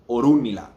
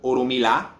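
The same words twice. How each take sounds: First: The 'run' syllable is stressed. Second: The 'run' syllable is not stressed. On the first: The speaker calls it right. "The emphasis is on the U" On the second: The speaker calls it wrong. "It's not Orunmila"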